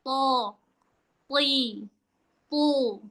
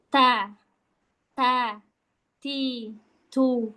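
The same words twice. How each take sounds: First: "To, pli, pu" as heavy t sounds, "to, ti, tu"; thick heavy letter. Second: "Ta, ta, ti, tu" with a light t, one by one; thin ta. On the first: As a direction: raise the back of the tongue on "to, ti, tu". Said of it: "dia pangkal lidahnya naik". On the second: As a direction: separate light syllables "ta, ti, tu". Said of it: "tak versi tipis gampang". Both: Shown as a demonstration.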